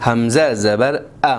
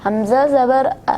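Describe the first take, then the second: First: Slow, distinct حمزہ زبر ا; clearly. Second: Quick, slurred حمزہ زبر ا; unclear. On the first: Shown as a demonstration. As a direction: spell each part of حمزہ زبر ا clearly and slowly. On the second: Real, not acted. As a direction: rush حمزہ زبر ا together indistinctly. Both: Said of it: "واضح پڑھیں".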